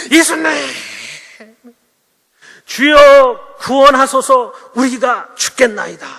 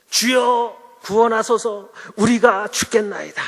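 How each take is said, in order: First: Loud, high, drawn-out desperate plea; acted shout, stretched long, falling away at the end; crying out to Jesus. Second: Slow, stretched-out recital of the plea; measured, drawn-out biblical plea; stately scripture quote. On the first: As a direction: cry out for rescue as if drowning. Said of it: "막 소리를 지르면서 예수님께". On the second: Acted. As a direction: recite it grandly, without shouting. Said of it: "말씀에는 좀 이렇게 멋지게 표현이".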